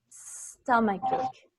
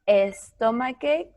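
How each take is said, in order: First: The word begins directly with the S sound. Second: An extra vowel sound comes before the S. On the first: The speaker calls it right. "We start with the letter S" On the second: The speaker calls it wrong. "It's not"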